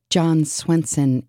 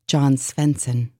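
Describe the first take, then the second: First: Said in the usual way. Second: A light German accent, Svensson with an f-like v. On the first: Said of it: "in a German accent". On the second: Shown as a demonstration. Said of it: "John Swenson in a German accent".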